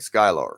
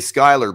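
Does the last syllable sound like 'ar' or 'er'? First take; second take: ar; er. First: The last syllable is stressed with an 'ar' sound. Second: The last syllable is a plain 'er' sound. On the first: "slightly emphasize the A R instead of E R, like Skylar" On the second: "you could still say Skylar"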